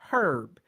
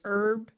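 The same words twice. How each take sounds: First: The word starts with an audible H sound. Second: The word starts with no H sound. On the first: "British English herb, pronounced H is standard" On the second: "American English herb, silent H is standard"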